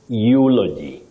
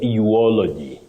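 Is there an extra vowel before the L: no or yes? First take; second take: no; yes. First: No extra vowel is inserted before the L. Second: An extra O vowel is inserted before the L. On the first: The speaker calls it right. "You say eulogy" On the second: The speaker calls it wrong. "what we should avoid is eulogy"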